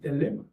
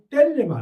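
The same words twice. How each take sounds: First: The stress is on the second syllable. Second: The stress is not on the second syllable. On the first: The speaker calls it right. "레 강성" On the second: The speaker calls it wrong. "텔레마 아니고"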